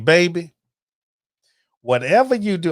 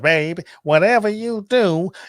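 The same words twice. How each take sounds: First: It is said in his own normal voice. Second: It is said in a put-on imitating voice.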